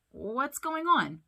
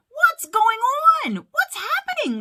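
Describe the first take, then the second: First: Slow, higher-pitched, mildly curious question; puzzled question. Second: Very high, loud panicked questions; alarmed cry. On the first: Sully noticing nobody looks festive, mildly puzzled. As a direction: ask it slowly, without alarm. Sully asks calmly, unaware of trouble. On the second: Mike watching the laugh meter drop, crying out alarmed. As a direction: cry out in alarm as things go wrong. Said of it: "cried Mike". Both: A narrator's reading.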